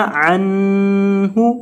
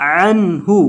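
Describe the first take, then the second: First: अनहु slow and drawn out, with a nasal ghunna on the नून; अनहु said the wrong way, nasalized and stretched; wrong nasalized reading. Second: अनहु short and clean, with no nasal hum on the नून; अनहु said the right way, plain and clean; correct, no ghunna. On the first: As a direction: hum the नून of अनहु through the nose, drawn out. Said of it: "इस तरह नहीं पढ़ना, ये गलत है". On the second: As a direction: say अनहु crisply without nasalizing. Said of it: "इसको पढ़ना है". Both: Shown as a demonstration.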